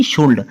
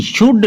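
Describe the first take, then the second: First: "शुल्ड" with an audible l before the d; wrongly sounded L. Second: "शुड" going straight from vowel to d; silent L. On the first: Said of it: "ना कि". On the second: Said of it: "ना कि शुल्ड". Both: Shown as a demonstration.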